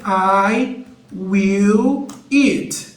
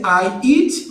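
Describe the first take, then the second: First: Each word drawn out slowly; teacher modelling I will eat very slowly; slow careful model phrase. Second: Said in the usual way. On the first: Shown as a demonstration. Teacher modelling the future form slowly for beginners. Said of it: "vai ser I will eat". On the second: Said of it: "em vez de ser".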